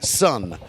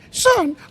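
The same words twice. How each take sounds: First: It is said in the speaker's normal voice. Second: It is said in an impression of Patton's voice.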